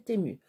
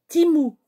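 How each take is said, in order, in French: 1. Le nom se dit à la française, comme teh-mu. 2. Le nom se dit à l'anglaise, comme tee-moo. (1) "Moi, je prononcerai Temu. Parce que moi, je suis en France" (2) "ça se prononce Timou"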